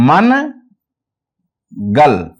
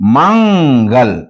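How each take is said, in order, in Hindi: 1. n एक पूरा व्यंजन है, gal से अलग। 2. n एक नासिक्य ध्वनि है, जो gal में मिल जाती है। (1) "अब इसको हम ये नहीं पढ़ते" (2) "आवाज नाक में अदा होगी"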